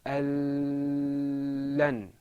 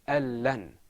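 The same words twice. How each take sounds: First: The doubled sound is drawn out long. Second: The doubled sound is short, not drawn out. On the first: The speaker calls it wrong. "I didn't say al-lan. I didn't draw my voice out" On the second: The speaker calls it right. "I said al-lan"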